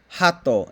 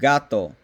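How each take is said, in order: First: The word starts with a breathy h sound. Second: The word starts with a hard g sound. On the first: The speaker calls it wrong. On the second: The speaker calls it right.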